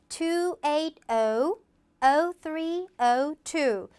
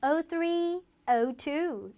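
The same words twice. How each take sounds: First: Slow "two eight oh", short pause, "oh three oh two"; digit by digit. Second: Slow "oh three", pause, "oh two", in pairs; grouped advert-style. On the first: Teacher showing how to read a phone number, digit by digit. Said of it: "하나, 하나, 하나 읽으면". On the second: Teacher giving a phone number an advert feel, read in pairs. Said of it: "묶어읽기를 해서". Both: Shown as a demonstration.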